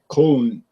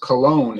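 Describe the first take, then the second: First: The name is said with a German pronunciation. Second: The name is said with an English pronunciation. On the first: "in German they pronounce it like Cologne" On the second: "pronounced Cologne in English"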